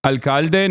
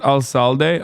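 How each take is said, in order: First: "Alcalde" with a hard k in the middle; corrected pronunciation. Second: "alcalde" with an s sound for the c; mistaken pronunciation. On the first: Streamer repeats chat's correction, hard-k "Alcalde". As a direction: say "Alcalde" as al-KAL-deh. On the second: Streamer shows the earlier mistake, s-sound "alcalde". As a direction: say "alcalde" as al-SAL-deh. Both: Shown as a demonstration. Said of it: "not alcalde".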